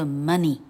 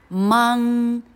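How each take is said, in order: First: The word is said as money, with a short vowel. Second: The word is said so it sounds like morning. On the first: The speaker calls it right. "这个字不念作morning，这个字念作money" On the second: The speaker calls it wrong. "[name]模仿念过这个字的人的最夸张版"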